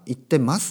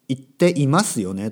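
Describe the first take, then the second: First: The i sound is dropped, giving a shorter form. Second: The full form with the i sound is pronounced. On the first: "言ってますになる" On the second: "言っていますよねとか"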